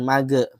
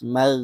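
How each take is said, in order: First: The syllable ends with an added bouncing e vowel. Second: The syllable ends smoothly with no added vowel. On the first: The speaker calls it wrong. "jangan mage, mage ada e-e-nya itu salah" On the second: The speaker calls it right. "harus lebih halus"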